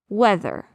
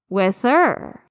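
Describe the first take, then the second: First: The stress is on the first syllable. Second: The stress is on the second syllable. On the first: The speaker calls it right. "How do you pronounce the word whether?" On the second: The speaker calls it wrong. "would have me pronounce it whether. That's wrong"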